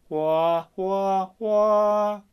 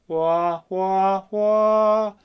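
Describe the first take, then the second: Both takes have the same delivery.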